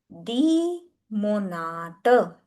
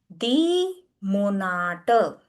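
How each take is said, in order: The two takes are said the same way.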